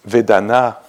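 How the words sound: The word is said with a French accent. "That's with the French accent"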